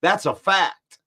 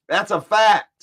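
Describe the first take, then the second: First: Said in the usual way. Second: Louder, with a rising "fact"; emphatic insistence. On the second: Real, not acted. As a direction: slam it home with a rise on "fact".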